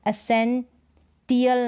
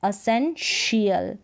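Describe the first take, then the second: First: The consonant before the ending is 't'. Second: The consonant before the ending is 'sh'. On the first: The speaker calls it wrong. "नहीं" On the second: The speaker calls it right. "टी आई ए श"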